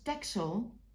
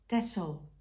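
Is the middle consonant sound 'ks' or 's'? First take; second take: ks; s. First: The middle consonant sounds like 'ks'. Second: The middle consonant sounds like a plain 's'. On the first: This is how most people say it. "everybody says Texel because you write it with an X" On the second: This is how Dutch people say it. "us Dutch people pronounce it as Tessel with a double S"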